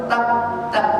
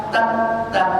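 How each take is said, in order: Both takes have the same delivery.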